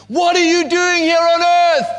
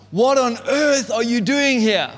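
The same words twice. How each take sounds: First: Much higher, louder full scream; a high, loud screaming au pair in a muddle. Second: Raised, higher mock scold; a fairly raised, higher mock shout at the kids; intended scream. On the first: Retold or imitated. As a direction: scream it at the wrecked room. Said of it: "so she screams". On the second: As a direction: act out the yell she meant to give. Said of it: "she is meant to scream out".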